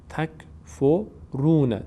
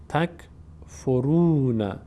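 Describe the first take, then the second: The two takes are said the same way.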